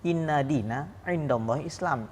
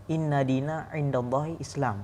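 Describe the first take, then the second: No difference in how they are said.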